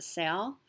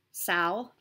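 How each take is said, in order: First: Said in the usual way. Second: "Sal" in a sudden odd accent; stray accent. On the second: Shown as a demonstration. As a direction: slip into a quirky accent on "Sal". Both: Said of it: "I don't know where that accent came from".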